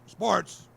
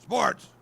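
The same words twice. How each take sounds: First: Loud, higher shout of the editor's greeting; wife mimicking the gruff phone answer; wife loudly copying the editor's bark; mock gruff answer. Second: Loud, much higher barked greeting; sharp gruff shout into the phone. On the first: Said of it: "she says". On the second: Retold or imitated. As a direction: answer the phone like a gruff editor. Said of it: "Real gruff".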